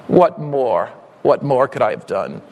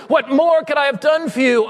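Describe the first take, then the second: First: Hushed, aching tender appeal; tender plea. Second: Full-voiced preacher's shout; pleading cry. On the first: Acted. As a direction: breathe the question gently. Soft low repeat of refrain. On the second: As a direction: cry it out to the church. Loud cry of the refrain.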